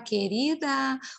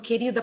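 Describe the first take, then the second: First: The word is said in a mocking, sarcastic tone. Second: The word is said in a stern, scolding tone. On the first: The speaker is making fun of the listener. "com deboche" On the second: The speaker is reprimanding the listener. "para te dar uma bronca"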